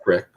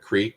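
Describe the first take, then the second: First: The vowel is a short i sound. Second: The vowel is a long ee sound.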